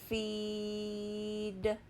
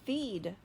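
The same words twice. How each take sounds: First: The word is stretched out slowly. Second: The word is said quickly.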